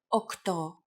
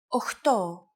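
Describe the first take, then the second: First: The middle consonant is a hard k sound. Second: The middle consonant is a breathy ch sound. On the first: It is the standard form. "the standard pronunciation" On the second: It is the casual everyday form. "especially in casual conversation"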